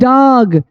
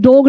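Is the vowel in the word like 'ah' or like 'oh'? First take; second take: ah; oh. First: The vowel sounds like 'ah'. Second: The vowel sounds like 'oh'. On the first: The speaker calls it right. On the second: The speaker calls it wrong. "डोग नहीं"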